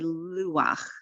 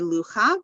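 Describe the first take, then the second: First: The ah vowel comes before the ch sound. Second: The ah vowel comes after the ch sound. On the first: The speaker calls it right. "the vowel comes first" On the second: The speaker calls it wrong. "we don't say lucha"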